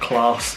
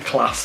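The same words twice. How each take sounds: First: The word is said in a non-Yorkshire accent. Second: The word is said in a South Yorkshire accent. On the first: This is how the other person says it. The speaker calls it wrong. "it's not class" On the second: This is the local way to say it. The speaker calls it right. "proper South Yorkshire lingo"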